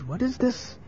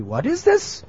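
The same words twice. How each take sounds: First: High, soft worried question. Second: Very high incredulous question; shocked reproach. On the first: Mother hears what her son is doing, worried. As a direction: ask it in hushed alarm. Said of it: "was very worried". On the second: Neighbours confront the mother over her son, shocked reproach. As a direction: ask it in high-pitched disbelief. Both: Acted.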